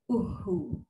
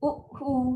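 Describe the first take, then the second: First: It flows smoothly without any break. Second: It is broken up with a hard catch. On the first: The speaker calls it right. "Bila huruf sabdu mesti masuk tekan dengan lancar tanpa ada sekatan" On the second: The speaker calls it wrong. "kan dah tersangkut-sangkut dan bunyi dia keras memang salah"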